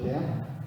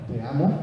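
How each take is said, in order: First: It is said as a plain statement. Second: It is said as a doubtful question. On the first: The speaker declares love. "La más común" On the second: The speaker doubts the love. "que es una pregunta. ... está dudando"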